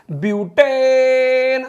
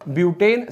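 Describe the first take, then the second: First: Chanted, long held final vowel in butane, high and loud; chanted, stretch butane out on one high note; sustained classroom chant; drawn-out chant. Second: Said in the usual way. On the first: Shown as a demonstration. Teacher chants list of alkanes.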